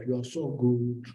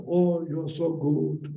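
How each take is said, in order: First: Said in the usual way. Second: Slow, high, drawn-out flattering praise; slow sing-song "Oh, you're so good"; mock sweet compliment. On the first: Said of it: "And you will shout back". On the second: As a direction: coo it like a gushing admirer. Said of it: "And you say".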